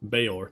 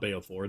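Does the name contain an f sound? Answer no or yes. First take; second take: no; yes. First: The name is said without an f sound. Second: The name is said with an f sound. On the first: The speaker calls it right. "Bayor, not Beofor. There's no F in his name" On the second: The speaker calls it wrong. "There's no F in his name"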